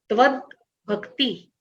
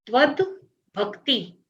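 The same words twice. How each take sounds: First: त्वद with a half द, then भक्ति with a full भ, said apart; softly spelled out त्वद … भक्ति, half द, full भ; careful split pronunciation. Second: त्वद भक्ति slowly and softly joined, half द gliding into a full भ; teacher slowly models त्वद भक्ति with half द and full भ; slow careful pronunciation. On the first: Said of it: "ये याद रखना है उच्चारण करते समय". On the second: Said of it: "त्वद में द आधा है". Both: Shown as a demonstration.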